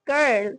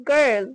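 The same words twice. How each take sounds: Both takes have the same delivery.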